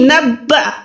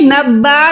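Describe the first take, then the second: First: The vowel is cut off with an abrupt stop. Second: The vowel is stretched long instead of cut. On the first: The speaker calls it right. "झटका देके पढ़ते हैं" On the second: The speaker calls it wrong. "नहीं"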